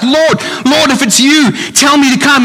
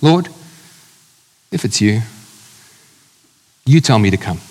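First: It is shouted out in an excited tone. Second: It is said in a cynical, doubting tone.

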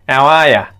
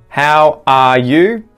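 First: 'You' becomes 'ya' and the h is dropped. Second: Every word is said fully, ending in 'you'. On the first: "you can remove that H and it sounds like" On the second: "We'd never say it like that"

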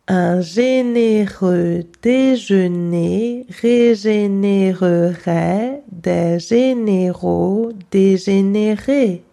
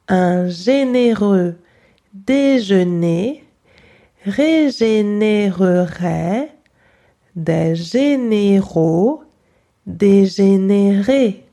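First: It is said fairly fast and smoothly. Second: It is said slowly and carefully.

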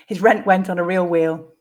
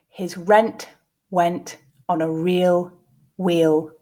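First: The sentence is said at a natural pace. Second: The sentence is said slowly. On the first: "the second two at a more natural pace" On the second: "the first time slowly"

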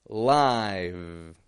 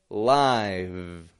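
The two takes are said the same way.

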